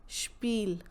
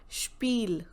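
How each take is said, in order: The two takes are said the same way.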